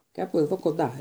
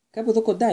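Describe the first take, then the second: First: A knowing, pointed echo; meaningful repeat. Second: Higher and louder, bursting with news; excited. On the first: Ron repeats it while eyeing Harry, meaningful. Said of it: "επανέλαβε ο Ρον, κοιτάζοντας με νόημα". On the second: Seamus spills the news to Harry, excited. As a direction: blurt out the big news eagerly. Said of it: "είπε ενθουσιασμένος ο Σίμους". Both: A narrator's reading.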